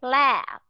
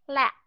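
First: "La" drawn out long before a closed, voiced b; long vowel, voiced ending. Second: "La" cut short by closed lips on a silent p; short vowel, voiceless ending. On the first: Teacher reading two contrasting words to class, long voiced ending. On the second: Teacher reading two contrasting words to class, short voiceless ending. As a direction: keep the vowel of "La" brief and stop it. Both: Shown as a demonstration. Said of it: "Cách đọc qua hai chữ".

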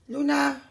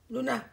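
First: Very loud, ringing shout; loud name call. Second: Short, raised-voice call; short name call. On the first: Owner looking for pet Luna, full loud shout. Calling pet again, much louder. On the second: Owner looking for pet Luna, short call. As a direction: call the pet once, quickly. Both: Real, not acted.

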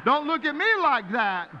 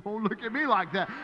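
First: Higher, louder playful telling-off; mock scolding. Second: Said in the usual way. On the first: Shown as a demonstration. Pastor jokingly scolding the congregation, higher and louder. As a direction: wag a finger at the crowd.

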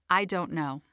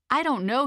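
First: Said in the usual way. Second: Higher, rising and dithering; Hilda's voice. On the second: Shown as a demonstration. Narrator voicing Hilda, mildly indecisive. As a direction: let it lift as if unsure. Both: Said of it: "Hilda perpetuates inertia and indecision".

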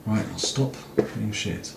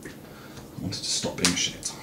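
First: Said in the usual way. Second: Slow, breathy whisper to himself; a quiet sigh of a resolve; whispered self-reproach. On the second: Real, not acted. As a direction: barely voice it, half to yourself. Repeats the resolve under his breath.

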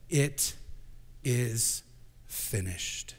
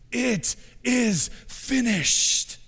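First: Each word set apart by pauses; slow measured reading. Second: High, drawn-out slow cry; crucified Jesus screaming. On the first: Shown as a demonstration. Pastor reading the last words, slow and spaced. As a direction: lay it down word by word, fading at the end. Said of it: "it doesn't just say that he said it". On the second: Retold or imitated. Pastor voicing Jesus' last scream, high and slow. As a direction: stretch it out as one long anguished cry. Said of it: "and he screams".

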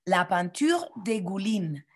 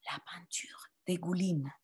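First: Said in the usual way. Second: Voiceless whisper, each word soft. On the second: Shown as a demonstration. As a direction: hush it for the class to echo. (chuchoté) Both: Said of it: "Répétez".

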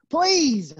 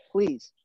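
First: PLEASE stretched out and pitched high; insistent plea. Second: Said in the usual way. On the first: Real, not acted. Coach asking class for arms behind heads, insistent PLEASE. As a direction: lean hard on PLEASE, higher and more forceful.

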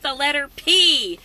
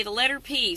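First: The letter P, slow, with P punched louder; announcing the letter. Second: Said in the usual way. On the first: Shown as a demonstration. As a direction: lean on P like a show host. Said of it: "So let's do alphabet soup". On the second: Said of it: "I got some good ones today".

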